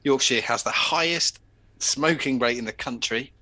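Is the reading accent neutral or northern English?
neutral. It is read in an ordinary newsreader accent.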